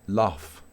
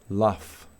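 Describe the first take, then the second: Both takes have the same delivery.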